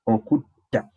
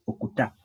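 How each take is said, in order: First: "okutta" with a held stop before "ta"; stressed double consonant. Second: "okuta" run together with a light single t; relaxed single consonant. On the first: Teacher shows learner the word to kill, stressed consonant. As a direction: hold the double t in "okutta", then release. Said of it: "if you stress it". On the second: Teacher shows learner the word to release, relaxed consonant. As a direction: say "okuta" softly, without holding the t. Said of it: "say it relax". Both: Shown as a demonstration.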